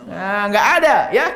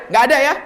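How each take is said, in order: First: Said in the usual way. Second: Nggak ada ya pushed higher and louder; emphatic repeat. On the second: Real, not acted. Preacher insists to the congregation, higher and louder. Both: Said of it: "Nggak boleh ada".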